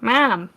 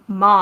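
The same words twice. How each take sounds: First: It is said in a Chicago accent. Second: It is said in the speaker's usual accent. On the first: Someone else's way of saying it is copied. "I had a coworker ... who was from Chicago, and when she said "mom," like "mom,"" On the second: It is the speaker's own usual way of saying it. "saying "mom" again, like my normal, like my normal accent"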